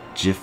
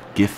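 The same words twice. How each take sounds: First: It starts with a soft j sound. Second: It starts with a hard g sound. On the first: "like giraffe" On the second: "like girl"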